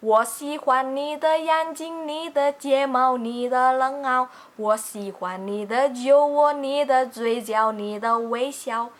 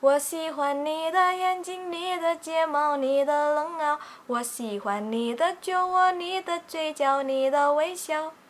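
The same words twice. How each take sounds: First: Mumbled, imprecise sung lyric; sloppy pronunciation. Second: Clean, gentle sung lyric; clear pronunciation. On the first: Teacher sings with deliberately unclear pronunciation. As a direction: sing 我喜欢你的眼睛 with vowels blurred and unclear. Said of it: "kalau kita melafalkannya masih kurang tepat". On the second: Teacher sings with clear pronunciation as the good example. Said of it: "dengan pelafalan yang lebih enak". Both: Shown as a demonstration.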